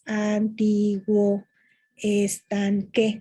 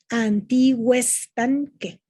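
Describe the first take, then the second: First: The two words are said separately. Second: The two words run together as one. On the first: It counts as six syllables in prose. "Si fuera prosa, serían seis sílabas" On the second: It counts as five syllables in poetry. "Son cinco sílabas"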